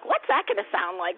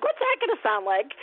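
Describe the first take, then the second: First: Lower-pitched wondering question; musing question. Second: Curious question. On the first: Guest imagines hearing an accent, musing low. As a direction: ask it low, as if pondering. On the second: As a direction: lift the question up at the end. Repeats the question, higher take. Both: Retold or imitated.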